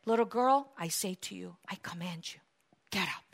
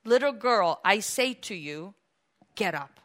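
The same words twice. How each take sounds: First: Very soft, low authority; quiet, weighty order; hushed command. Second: Measured, tender command; gentle command. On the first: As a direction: sink almost to a whisper as you command. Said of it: "he commanded". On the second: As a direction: gently bid her rise. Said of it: "by the hand and said". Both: Acted.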